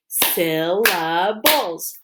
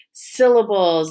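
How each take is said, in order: First: "Syllables" slowly, split into three beats; clapped syllables. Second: Said in the usual way. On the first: Shown as a demonstration. Teacher clapping with pupils, "Syllables" said beat by beat. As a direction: break "Syllables" into syl, la, bles. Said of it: "Let's clap it". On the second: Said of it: "Say the word syllables".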